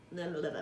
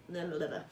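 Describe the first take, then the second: No difference in how they are said.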